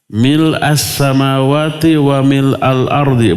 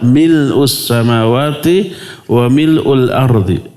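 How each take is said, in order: First: The vowel after mil is an a sound. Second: The vowel after mil is a u sound. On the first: "Cuma mil'a itu lebih utama" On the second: "Boleh dibaca mil'u"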